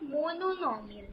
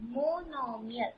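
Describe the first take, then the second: First: The word has an extra 'no' syllable. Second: The word has no extra 'no' syllable. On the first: The speaker calls it wrong. "not mononomial" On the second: The speaker calls it right. "Monomial. Yes"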